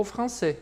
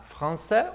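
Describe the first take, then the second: First: "français" slowly, ending on closed é; closed southern ending. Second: "Français" slowly, ending on open è; open Parisian ending. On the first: Teacher offers students the other option, "français" with closed ending. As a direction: tighten the final vowel of "français". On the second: Teacher offers students both options, first "Français" with open ending. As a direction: open the final vowel of "Français". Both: Shown as a demonstration. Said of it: "os dois são factíveis".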